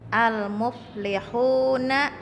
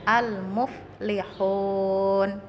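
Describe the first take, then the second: First: The word ends with a short vowel. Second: The word ends on a consonant. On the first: The reading continues without stopping. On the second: The reading stops on this word.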